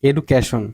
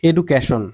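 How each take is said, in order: Both takes have the same delivery.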